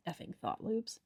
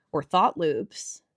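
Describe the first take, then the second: First: Soft grumbling "effing thought loops" under the breath; muttered aside. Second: Said in the usual way. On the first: Real, not acted. Teacher on anxious viewers' thought loops, muttering.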